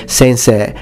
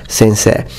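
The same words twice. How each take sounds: No difference in how they are said.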